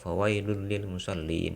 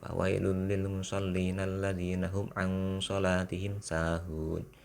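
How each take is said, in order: First: The reading stops after musallin. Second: The reading continues without stopping after musallin.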